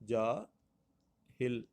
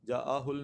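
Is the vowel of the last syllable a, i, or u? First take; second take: i; u. First: The last syllable has an i vowel. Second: The last syllable has a u vowel. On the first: The speaker calls it right. "दुरुस्त इसका जो तलफ़्फ़ुज़ होगा" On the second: The speaker calls it wrong. "जा जा आहुल नहीं है"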